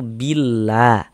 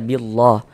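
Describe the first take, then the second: First: The L is light and thin. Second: The L is heavy and thick. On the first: The speaker calls it right. "dibaca tipis, dibaca tarkik" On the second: The speaker calls it wrong. "jangan dibaca billah"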